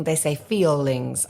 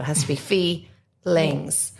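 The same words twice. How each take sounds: First: Feelings stretched, feel split into two syllables; slow, split the word feelings; drawn-out feelings. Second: Feelings with feel as one clean syllable; correct feelings. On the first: Singing teacher shows how kids stretch feelings. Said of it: "when they're singing". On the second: Teacher shows the kids the right feelings. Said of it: "No, you can't do that". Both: Shown as a demonstration.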